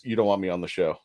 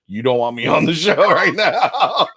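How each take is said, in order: First: Low, soft, understated protest; mumble-low, reluctant brush-off; low-key retold refusal. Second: Laughing retold refusal. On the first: Guest retelling a refusal to Joe, low and subdued. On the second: Guest fresh from the shower refusing Joe, laughing helplessly. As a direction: protest breaking up into laughter.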